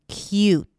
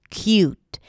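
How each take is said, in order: The two takes are said the same way.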